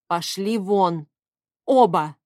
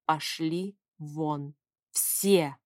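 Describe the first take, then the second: First: Slow, very loud shout; yelling. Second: Slow, hoarse and low, drained of voice; hoarse croak. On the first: Heroine screams at father and son to get out, loud and slow. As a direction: throw them out at full voice. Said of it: "заорала я". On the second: Crying heroine croaks at the men to get out, slow and hoarse. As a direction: rasp it out, too worn to shout. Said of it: "просто прохрипела". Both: A narrator's reading.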